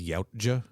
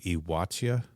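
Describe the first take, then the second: First: The name begins with a 'yow' sound. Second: The name begins with an 'ee-wah' sound. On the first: It is read as it looks on the page. The speaker calls it wrong. "says it phonetically, like as it looks on page" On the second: It follows the source language. The speaker calls it right. "the pronunciation of that is supposed to be something close to Iwatya"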